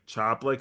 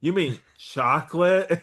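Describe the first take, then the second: First: "Choplic" said as CHOP-lic, the k sound of chocolate dropped; kid's mispronunciation. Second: "chocolate" said properly, higher and slower, as a puzzled question; correct word. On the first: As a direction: say "Choplic" like a small child who can't manage chocolate. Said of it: "she would say choplic instead of chocolate". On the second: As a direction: correct the kid with "chocolate", slowly and up high. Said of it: "instead of chocolate". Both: Retold or imitated.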